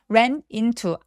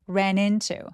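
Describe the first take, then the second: First: The two words are said separately. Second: The n links smoothly into the next word. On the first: The speaker calls it wrong. "ran into 아니고" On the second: The speaker calls it right. "바로 앞에 있었던 자음을 받아서 연결해 주시는 게 가장 자연스러워요"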